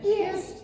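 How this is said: The put-on voice is high-pitched.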